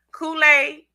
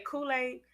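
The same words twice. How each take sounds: First: Kool-Aid punched higher and louder; emphatic Kool-Aid. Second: Said in the usual way. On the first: Shown as a demonstration. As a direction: belt out Kool-Aid as a showy repeat. Repeats the word for show.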